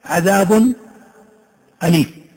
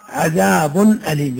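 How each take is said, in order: First: Said in the usual way. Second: عذاب أليم with the nun sounded clearly before أليم; slow, with ن audible after عذاب. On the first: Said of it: "هذه تقرأ". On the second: Shown as a demonstration. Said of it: "يعني كانك تطلع النون".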